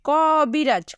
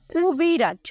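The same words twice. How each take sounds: First: ক বিরাজ with an open "kaw"; open vowel in ক. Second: কুবিরাজ with a close, rounded first vowel; standard pronunciation. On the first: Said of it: "এভাবে বলতে পারি". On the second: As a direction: say কুবিরাজ starting "koo", not "kaw". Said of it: "প্রমিত উচ্চারণে কিভাবে বলবো". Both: Shown as a demonstration.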